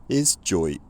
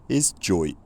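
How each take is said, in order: No difference in how they are said.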